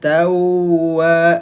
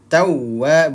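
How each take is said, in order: First: The doubled w is held for two beats. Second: The doubled w is pressed for one beat. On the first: The speaker calls it wrong. "ditahan ya, dia dua ketukan, itu kurang tepat" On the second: The speaker calls it right. "tawwa satu ketukan saja"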